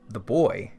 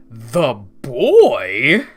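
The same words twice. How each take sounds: First: It ends with a natural, level or falling tune. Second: It ends with an odd, rising question tune.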